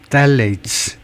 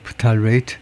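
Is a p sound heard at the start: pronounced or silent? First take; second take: silent; pronounced. First: The p is silent; stress is on the start. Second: The word begins with a clear p sound. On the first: This is the English pronunciation. "앞에다 액센트를 두고 셀H" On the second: This is the Korean loanword pronunciation. "우리말에서 프탈레이트라고 그냥 하네요"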